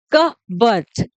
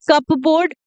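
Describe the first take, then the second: First: "कबर्ड" as slow kuh-burd, silent P; correct pronunciation. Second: "कपबोर्ड" with P sounded; wrong pronunciation. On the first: Teacher giving learners the right form, slow "कबर्ड" without P. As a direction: say "कबर्ड" slowly, dropping the P. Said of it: "इसको बोलते हैं". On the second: Teacher warning what not to say, mispronounced "कपबोर्ड" with audible P. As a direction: say "कपबोर्ड" as cup-board. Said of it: "नहीं बोलते हैं बिल्कुल भी". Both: Shown as a demonstration.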